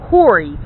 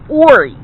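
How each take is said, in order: First: The word begins with an H sound. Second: The word begins with a vowel sound. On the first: The speaker calls it wrong. "It is not pronounced Horry" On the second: The speaker calls it right. "It is pronounced Ori. There is no H in the pronunciation"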